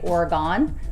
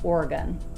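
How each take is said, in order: First: The last syllable has an O vowel sound. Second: The last syllable has a U vowel sound. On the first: The speaker calls it wrong. "incorrectly pronounce the state and say Oregon because of the O at the end" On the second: The speaker calls it right. "correctly pronounced more with a U sound"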